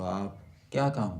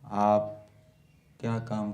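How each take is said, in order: First: Kya is stressed in a raised, reproachful voice. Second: It is said as a plain, neutral question. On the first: The speaker is scolding about the work being done. "क्या के ऊपर यदि बल देंगे, ऊंचे स्वर से बोलेंगे" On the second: The speaker is asking what work is being done. "ये प्रश्नवाचक।"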